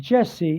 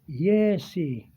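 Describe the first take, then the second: First: The name begins with a J sound. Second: The name begins with a Y sound. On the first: The name is said the usual way. "instead of Jesse" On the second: A Spanish speaker is saying the name. "they pronounce it with a Y sound"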